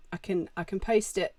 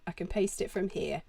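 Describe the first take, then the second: First: "paste" said as "poast"; "paste" slips into a long o, like "post"; "paste" blurred toward "post"; misspoken paste. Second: "paste" said clearly with an "ay" sound; "paste" fixed to rhyme with "taste"; "paste" said plainly, like "pay-st"; corrected paste. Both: Real, not acted.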